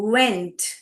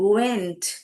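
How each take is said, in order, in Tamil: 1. இந்த சொல் உதடு வட்டமாக குவித்து சொல்லும் w ஒலியில் ஆரம்பிக்கும். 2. இந்த சொல் உதடு வட்டமாக குவித்து சொல்லும் w ஒலியில் ஆரம்பிக்கும்.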